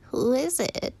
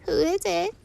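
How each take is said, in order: First: High swooping fake granny; wolf posing as grandmother. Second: Put-on thin, very high old granny; weak grandmother. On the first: Wolf calls from grandmother's bed, high swooping pretence. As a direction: imitate granny, rising then falling. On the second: Grandmother calls from inside the house, weak high voice. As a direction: call out feebly in a high voice. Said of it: "said a weak voice".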